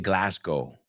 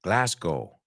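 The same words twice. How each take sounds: First: It is pronounced the Scottish way, ending like go. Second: It is pronounced the Scottish way, ending like go.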